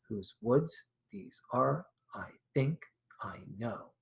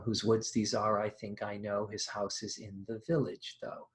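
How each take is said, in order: First: Slow, each stressed syllable "woods", "think" hit; stress pattern shown. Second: Quiet recitation of the opening; poem recitation. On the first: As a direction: slowly beat out unstressed-stressed. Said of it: "unstressed stressed". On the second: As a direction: read the Frost lines evenly, as verse. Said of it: "that poem goes". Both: Shown as a demonstration.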